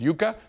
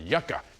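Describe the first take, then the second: First: It is said with a Spanish pronunciation. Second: It is said with a local English pronunciation. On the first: "in Spanish it's a vegetable root and it's called" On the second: "but here they pronounce it"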